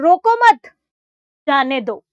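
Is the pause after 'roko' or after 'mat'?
after mat. There is a pause right after 'mat'.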